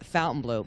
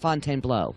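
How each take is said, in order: First: The name is said the common, everyday way. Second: The name is said the careful, original way. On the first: This is how most people say it. The speaker calls it wrong. "it's pronounced by everyone Fontainebleau" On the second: This is the proper form of the name. The speaker calls it right. "the correct pronunciation is Fontainebleau"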